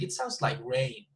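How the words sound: The strongest stress falls on the word rain. Rain is new information being introduced. "Johanna put more emphasis on this word rain because it's the, the new word"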